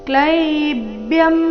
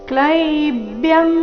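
Both takes have the same delivery.

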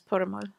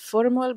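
First: The name begins with a p sound. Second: The name begins with an f sound. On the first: "the Pashto pronunciation is Purmul" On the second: "they say it's Purmul"

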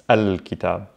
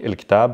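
First: The article is pronounced with an 'a' vowel. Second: The article is pronounced with an 'i' vowel. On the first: This is the formal standard form. "And MSA L" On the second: This is the everyday spoken form. "in case you hear il"

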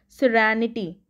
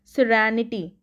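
First: The vowel after the R sounds like 'a'. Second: The same.

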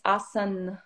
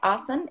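First: The final n has a slight extra ending. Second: The final n ends plainly and abruptly. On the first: The speaker calls it right. "it's asan. So there's a slight ending that we wouldn't have" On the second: The speaker calls it wrong. "So it's not quite asan"

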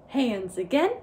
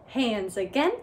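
Both takes have the same delivery.

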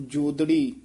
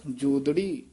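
The two takes are said the same way.

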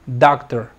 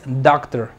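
No difference in how they are said.

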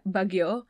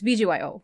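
First: The name is said as one word. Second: The name is spelled out letter by letter. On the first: The speaker calls it wrong. "when my brain looks at it, it's, like, Bagyo" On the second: The speaker calls it right. "But, no, it's BGYO"

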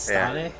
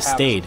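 First: The name is pronounced a non-American, German-like way. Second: The name is pronounced the American English way. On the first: The speaker calls it right. "But I think it's Stade?" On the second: The speaker calls it wrong. "if I was to pronounce that the American way"

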